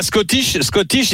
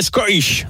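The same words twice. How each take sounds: First: Said in the usual way. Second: "Scottish" in a put-on English accent, middle t softened to an r; imitated English accent. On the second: Teasing a colleague over English pronunciation, imitated English accent. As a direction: say "Scottish" as a mock native English speaker, t turned to r. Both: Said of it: "il dirait Scottish".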